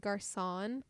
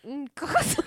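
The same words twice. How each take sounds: First: GARÇON with a plain hard American R; GARÇON anglicized, no throat sound; American pronunciation. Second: GARÇON with a scraped guttural R; GARÇON louder, rasped from the back of the throat; throaty French pronunciation. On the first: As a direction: say GARÇON flatly as "gar-sawn". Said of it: "the American in me is, like, would pronounce it". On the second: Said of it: "you really gotta do". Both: Shown as a demonstration.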